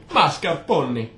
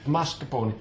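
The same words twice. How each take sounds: First: Mock Italian "Mascarpone", louder and slower; "Mascarpone" with a hammed-up Italian lilt; Italian accent creeping back. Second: Said in the usual way. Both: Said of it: "There, see, it's back already".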